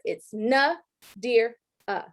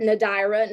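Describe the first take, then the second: First: Nadir-a said very slowly as "na-DEER-uh", each part separated; slow sounded-out name. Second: Nadira said as "na-DYE-ra" with a long eye sound; mispronounced name. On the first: Shown as a demonstration. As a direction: spell out Nadir-a by sound, na then dear then uh, dragged slow. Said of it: "let me sound it out for you to hear". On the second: Retold or imitated. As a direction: say Nadira wrongly, stretching the middle into "dye". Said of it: "I get called Nadidra".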